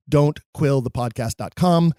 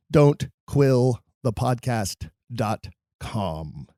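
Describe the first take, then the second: First: Said in the usual way. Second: Slow, word-by-word web address; slow repeat. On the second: Real, not acted. Host repeats the website for listeners, slow and measured. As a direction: spell it out slowly, pausing between words.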